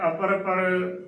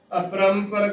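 First: "ਅਪਰ ਪਰ" as apar-par, no nasal; wrong pronunciation. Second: "ਅਪਰੰਪਰ" as apram-par, nasal sounded; correct pronunciation. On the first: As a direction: drop the m, saying "ਅਪਰ ਪਰ". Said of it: "ਗਲਤ ਉਚਾਰਨ ਹੋਵੇਗਾ". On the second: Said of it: "ਅਪਰੰਪਰ ਕਰਨਾ ਹੈ". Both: Shown as a demonstration.

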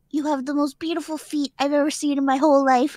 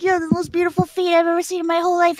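First: Measured creepy compliment. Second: Fast run-through of the man's line; quick, matter-of-fact quote; hurried retelling. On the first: First reveal of the man's line. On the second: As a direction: rattle off the quoted compliment quickly. Repeats the line, running on. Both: Retold or imitated.

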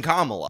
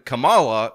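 First: Kamala said KAH-muh-luh; standard pronunciation. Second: Kamala said kuh-MAH-luh; alternative pronunciation. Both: Shown as a demonstration.

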